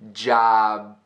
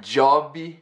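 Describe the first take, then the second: First: The final b is held without release. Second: An extra vowel is added after the final b. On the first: The speaker calls it right. "Almost pronouncing it, but not letting that puff of air go" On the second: The speaker calls it wrong. "It's not jobby"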